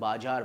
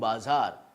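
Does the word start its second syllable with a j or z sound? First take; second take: j; z. First: The middle consonant is a j sound. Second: The middle consonant is a z sound. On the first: The speaker calls it wrong. "आम लोग उसे बाजार बोलते हैं" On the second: The speaker calls it right. "जैसे कि बाज़ार"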